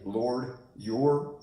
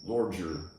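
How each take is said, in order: First: The two words are said apart, unlinked. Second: The d and y blend into a j sound. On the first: "you can say Lord your separately" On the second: "or you can connect them"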